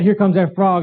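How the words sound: It is said in a horrified, fearful tone.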